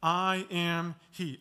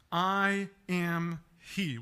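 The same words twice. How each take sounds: First: Slow, weighty I am he; simple and short. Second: Slow, deliberate I am he; simple and short. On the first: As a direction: repeat it slowly with weight. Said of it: "We looked at that last week". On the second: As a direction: lay each word down calmly. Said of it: "very simple, short response". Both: Shown as a demonstration.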